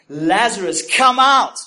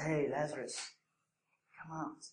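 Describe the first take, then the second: First: It is said loudly with authority. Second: It is said meekly and softly.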